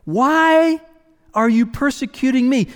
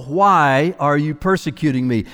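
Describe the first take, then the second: First: Higher, lifted, inviting question; voice of invitation. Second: A plain, restrained voice of authority; authority and restraint. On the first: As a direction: ask it as an open invitation, pitched up. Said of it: "it's the voice of invitation". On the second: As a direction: hold back, speak with calm authority. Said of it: "such a mix of authority and restraint". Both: Acted.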